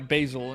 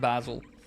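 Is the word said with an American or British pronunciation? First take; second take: American; British. First: It is said with an American pronunciation. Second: It is said with a British pronunciation. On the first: "it would probably be uh, basil" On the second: "Basil is like the super U K way of saying it"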